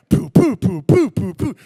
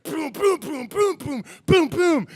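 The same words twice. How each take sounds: First: Loud punchy mouth-drum booms; loud vocal drum hits; drumbeat booms. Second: Bash out the beat, getting higher each time; rising vocal drum hits; tambourine booms. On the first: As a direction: thump out the song's beat with your voice. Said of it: "it has that". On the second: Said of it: "So I'm just like". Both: Retold or imitated.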